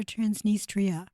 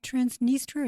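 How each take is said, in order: First: Transnistria ending in "-stree-uh"; full "-ia" ending. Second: Transnistria ending in "-stra", no "ee" before the final a; short ending. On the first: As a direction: say Transnistria with a clear "ee" before the final a. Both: Shown as a demonstration. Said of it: "Is it Transnistria or Transnistria?".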